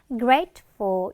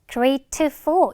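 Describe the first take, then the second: First: The middle t is weakened and barely heard. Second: The middle t is pronounced strongly and fully. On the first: The speaker calls it right. "트 발음이나 드 발음 좀 약화가 많이 돼요. 그래서 grateful 이런 느낌으로" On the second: The speaker calls it wrong. "중간에 트 발음을 grateful 이렇게 할 필요 없어"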